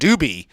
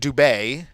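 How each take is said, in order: First: The name is said with an English pronunciation. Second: The name is said with a French pronunciation. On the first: "all of a sudden everyone was calling him Doobie" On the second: "That's the French way to pronounce it"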